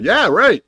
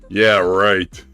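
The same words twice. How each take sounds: First: It is said in a sincere, agreeing tone. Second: It is said in a mocking, sarcastic tone. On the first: The speaker agrees. "agreeing with you" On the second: The speaker does not believe it.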